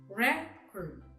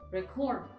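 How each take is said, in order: First: The stress is on the first syllable. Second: The stress is on the last syllable. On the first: It is a noun. "In the first column with nouns, the first syllables are written in bold letters, meaning the stress is in the first syllable" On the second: It is a verb. "while in the verb, the stress is in the last syllable"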